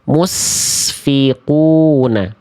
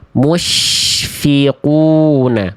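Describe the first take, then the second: First: The consonant after 'mu' is a hissing s. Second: The consonant after 'mu' is a spread sh. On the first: The speaker calls it wrong. "Yang D salah karena memang bukan huruf shin. ... yang D itu itu huruf sin. ... Kalau sin itu berdesis" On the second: The speaker calls it right. "Jadi yang tepat adalah yang yang C"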